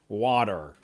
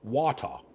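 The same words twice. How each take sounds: First: The middle consonant is a soft D sound. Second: The middle consonant is a clear T sound. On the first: "in America, we just say water" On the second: "in British English, they say water"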